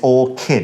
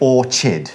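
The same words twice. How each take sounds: First: The middle consonant is a 'k' sound. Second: The middle consonant is a 'ch' sound. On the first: The speaker calls it right. "It's orchid, it's a K sound" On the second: The speaker calls it wrong. "even though it's got that C H in the middle of it, we don't say orchid"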